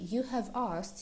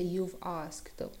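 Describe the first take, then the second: First: The word have is said in full. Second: The word have is shortened to a v sound. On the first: "Am spune you have asked to see me" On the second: "Iar forma contrast este you've asked"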